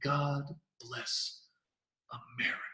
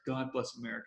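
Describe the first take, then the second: First: It is said slowly with drawn-out pauses. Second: It is said quickly and forcefully without pauses. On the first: It is presented as a revelation. "some people like to pause like that and build suspense almost... you're slowing down to really make it last" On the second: It is presented as something obvious. "the more direct... with a bit more force to it"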